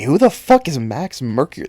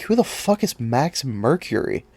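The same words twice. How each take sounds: First: Louder exasperated repeat; now demand it, fed up; angry outburst. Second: Baffled, half under the breath; asking the camera in disbelief; incredulous. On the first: Comic fan ranting at viewers, exasperated shout. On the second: Vlogger puzzling over an unknown hero, incredulous. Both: Real, not acted. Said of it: "that small outburst".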